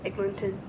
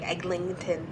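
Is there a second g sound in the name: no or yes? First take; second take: no; yes. First: The only g sound is in the first syllable. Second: An extra g sound is added before the ending. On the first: The speaker calls it right. "No, it's Eglinton" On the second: The speaker calls it wrong. "Some people say it with, like"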